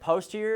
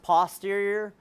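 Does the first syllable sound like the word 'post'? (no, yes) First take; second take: yes; no. First: The first syllable sounds like the word 'post'. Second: The first syllable does not sound like 'post'. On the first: "I always like pronouncing it posterior because it helps remember" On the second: "it's sometimes pronounced posterior"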